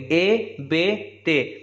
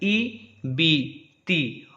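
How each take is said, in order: First: The vowel is an open, 'ay'-like 'e' sound. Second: The vowel is a close, clear 'ee' sound. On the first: The speaker calls it wrong. "मजहूल हो गया तो हम लोग उसको ऐसे बोल देंगे" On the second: The speaker calls it right. "मारूफ पढ़ेंगे तो ऐसे पढ़ेंगे"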